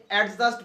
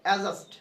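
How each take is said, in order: First: First অ্যাডজাস্ট with a full "ad" start; common "adjust" reading. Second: অ্যাডজাস্ট with the d dropped, "a-just"; correct "adjust". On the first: Teacher showing how we usually say adjust, "ad-just". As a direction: say অ্যাডজাস্ট as "ad-just", front consonant sounded. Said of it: "আমরা যে অ্যাডজাস্ট বলি". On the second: Teacher showing the corrected adjust, pronounced "a-just". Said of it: "ওখানে উচ্চারণ হবে". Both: Shown as a demonstration.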